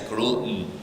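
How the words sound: The T sound is weakened. "in American accent, it's gluten, gluten because the the T is weakened"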